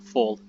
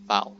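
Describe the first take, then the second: First: The word is said with an English vowel. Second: The word is said with a German vowel. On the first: The speaker calls it wrong. "not fall" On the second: The speaker calls it right. "it's Fall"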